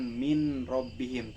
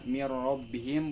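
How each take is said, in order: First: The n is pronounced separately before the r. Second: The n merges fully into the following r. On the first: The speaker calls it wrong. "bukan min robbihim" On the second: The speaker calls it right. "dibaca mirrobbihim"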